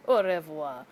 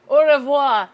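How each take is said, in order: First: Said in the usual way. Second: Loud "au revoir", French "oh ruh-VWAH"; French farewell. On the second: Acted. Vlogger bidding the storm goodbye, loud French "au revoir". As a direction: call out "au revoir" in French, loudly. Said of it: "That's a French word".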